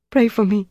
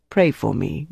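First: High, pleading woman's voice; distressed confession. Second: Said in the usual way. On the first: A narrator's reading. Prisoner surrendering the password to her interrogator, distressed confession. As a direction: give up the secret in a high, tearful voice. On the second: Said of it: "Dieter repeated".

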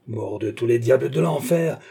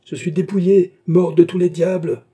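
First: Restrained angry oath; simmering oath before the outburst; building curse. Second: Loud, high outburst of rage; high, heated bellow; furious yell. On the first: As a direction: curse heavily, holding back the shout. Same curse, building to a threat. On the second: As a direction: yell it out like a curse. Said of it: "hurla Beausire". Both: A narrator's reading.

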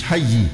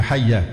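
First: "حي" ending in an i sound, hayyi; "حي" with a kasra ending; wrong ending. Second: "حي" ending in an a sound, hayya; "حي" with a fatha ending; correct ending. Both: Shown as a demonstration. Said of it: "مش حي، هي حي".

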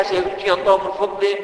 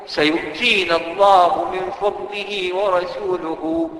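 First: Said in the usual way. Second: Slow, reverent chanting of the complete verse; slow Quran recitation. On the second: Shown as a demonstration. Preacher reciting the whole verse to the congregation, slow and reverent. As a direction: recite the full verse slowly, every word drawn out. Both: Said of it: "ليه عايز تخليها".

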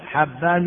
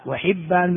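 First: حبان said "Habban", with a fatha on the first letter; short a in حبان. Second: وحبان said "wa-Hibban", with a kasra on the ح; short i in وحبان. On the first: Teacher tells apart two narrators' names, حبان with a fatha, "Habban". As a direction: say حبان with an "a" after the ح. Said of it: "بالفتح". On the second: Teacher tells apart two narrators' names, وحبان with a kasra, "Hibban". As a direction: say وحبان with an "i" after the ح. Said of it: "بالكسر". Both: Shown as a demonstration.

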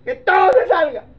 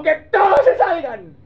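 First: High, loud shout with a laugh in it; shouted order. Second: High, loud, crying command; tearful order. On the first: Joseph sending everyone out, loud laughing shout. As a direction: bark it out half laughing. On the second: Joseph to the servants, high and tearful command. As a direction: cry it out as you send them away. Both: Acted.

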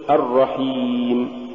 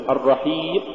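First: Said in the usual way. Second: الرحيم with the final م choked off; cut-off meem. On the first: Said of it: "قل". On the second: Shown as a demonstration. Teacher showing what not to say, meem chopped from الرحيم. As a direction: stop الرحيم abruptly on the "ee". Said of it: "ولا تقل".

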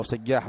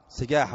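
First: سجاح said with a doubled ج, held; سجاح, lean on a doubled jim; سجّاح بتشديد الجيم; Sajjah with doubled j. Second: سجاح said with a single light ج; سجاح, the jim said once, not doubled; Arabic name سجاح with a plain, undoubled ج; Sajah. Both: Shown as a demonstration. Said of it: "التشديد، ها؟".

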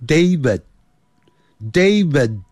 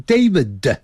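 First: Slow "David" with the last d stopped, unreleased; final d cut short. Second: "David" with an added "duh" at the end; wrong demo, final d of "David" sounded out as "de"; over-released final d. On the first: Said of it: "先切断". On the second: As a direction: finish "David" on a full extra "duh" syllable. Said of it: "不要念成David". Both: Shown as a demonstration.

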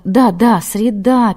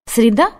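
First: Brisk confirmation, "среда" falling at the end; interrupting. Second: "Среда" lifted at the end as a question. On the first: Red-haired nun cuts off the calendar talk, "среда" falling decisively. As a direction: cut in and settle it with a falling "среда". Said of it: "перебила его рыжая". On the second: Nun asks what day it is, "Среда" rising questioningly. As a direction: ask "Среда" with a rising, unsure tune. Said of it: "спросила монашка". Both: A narrator's reading.

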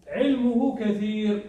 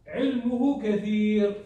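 No difference in how they are said.

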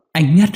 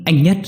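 First: High, loud choked call of his name; sobbing wife calls her dead husband's name again; sobbing cry. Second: High, loud choked call of his name; crying out his name through sobs; sobbing wife calls her dead husband's name. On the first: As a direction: keep crying out the name, sobbing. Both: Acted. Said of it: "nấc nghẹn".

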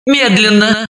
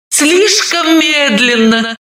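First: Said in the usual way. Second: Slow and stretched, слишком медленно; drawn out. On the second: Shown as a demonstration. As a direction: linger over слишком медленно, slowly. (растянуто и медленно)

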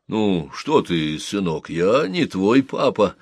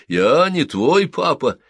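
First: Slow, taken-aback reply; gently at a loss for words; flustered sergeant. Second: Put-on high, slow, loud childish echo; the boy echoes the words back. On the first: Sergeant answers the clinging boy, slow and flustered. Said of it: "растерялся сержант". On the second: Boy echoes the sergeant's denial in a high child's voice. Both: A narrator's reading.

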